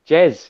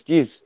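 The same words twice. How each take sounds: First: Said in the usual way. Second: "Jizz" with a short i for Jez; imitated accent pronunciation. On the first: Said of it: "when Reese says Jez". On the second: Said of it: "he says".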